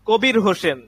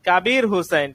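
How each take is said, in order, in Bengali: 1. নামটি বাংলা উচ্চারণে বলা হয়। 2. নামটি আরবি উচ্চারণে বলা হয়। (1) "সেটা হচ্ছে বাংলা উচ্চারণ" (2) "এটা হচ্ছে আরবি শব্দ"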